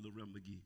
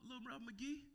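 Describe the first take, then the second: First: Said in the usual way. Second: Nickname sung out high by the friend; friend's nickname. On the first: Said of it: "That's what he used to call me". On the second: Retold or imitated. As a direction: call the name up high like the old friend. That's what he used to call me.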